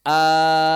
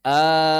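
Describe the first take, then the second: First: "al-an" with the first a stretched long; long mad al-an. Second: "Al-an" with the first a held long; long mad al-an. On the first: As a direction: draw out the opening a of "al-an" as a long mad. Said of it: "Karena ini jadi mad". ("al-an" dengan a panjang (mad lazim)) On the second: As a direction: stretch the opening a of "Al-an" into a long vowel. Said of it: "Jadi mad". ("Al-an" dengan a dibaca panjang) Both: Shown as a demonstration.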